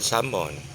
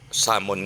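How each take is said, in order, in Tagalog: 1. Binibigkas ang salita nang pa-sosyal, medyo arte. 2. Binibigkas ang salita nang simple, karaniwan lang.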